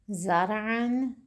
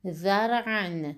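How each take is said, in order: First: ذرعاً as slow "zar'an", buzzing z; word with za. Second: ذرعاً as slow "dhar'an", tongue-tip dh; word with ذال. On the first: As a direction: start ذرعاً with a clear z, slowly. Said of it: "ستون دوم کلمه با حرف زا". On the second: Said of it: "ستون اول کلمه با حرف زال". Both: Shown as a demonstration.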